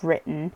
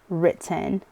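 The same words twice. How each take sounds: First: The middle t is a glottal stop. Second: The middle t is a clearly released t. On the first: "instead of" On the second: "let go of my precious glottal stops so that someone can understand"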